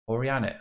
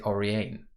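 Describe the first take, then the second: First: The name is said with Japanese pronunciation. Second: The name is said with English pronunciation. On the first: "that's Japanese pronunciation" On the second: "but I could say"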